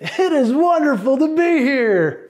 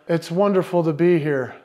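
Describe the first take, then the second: First: It is said in a lively, enthusiastic voice. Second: It is said in a flat, monotone voice. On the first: "the enthusiastic" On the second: "in monotone voice go"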